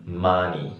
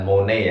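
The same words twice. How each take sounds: First: The first vowel is an open 'a' sound. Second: The first vowel is a rounded 'o' sound. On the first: The speaker calls it right. "tapi ma" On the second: The speaker calls it wrong. "bukan money ya"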